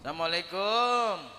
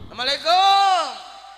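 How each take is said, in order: First: It is said at a normal volume. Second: It is said louder, with a raised voice.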